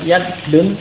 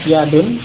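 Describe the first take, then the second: First: The d sound is long and doubled. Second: The d sound is short, not doubled. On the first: The speaker calls it wrong. "bukan yadun" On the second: The speaker calls it right. "tidak tasdid ya"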